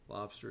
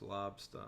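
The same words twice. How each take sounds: First: It is said in a standard accent. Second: It is said in a Maine accent.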